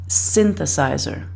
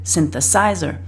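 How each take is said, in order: First: The stress is on the first syllable. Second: The stress is on a later syllable. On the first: The speaker calls it right. "it's the first syllable that we stress a bit more than the others" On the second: The speaker calls it wrong. "he pronounces it"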